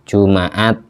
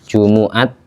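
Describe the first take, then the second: First: The m is followed by an a vowel. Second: The m is followed by a u vowel. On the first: "Ada yang membaca fathah" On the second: "mimnya dibaca dhamma"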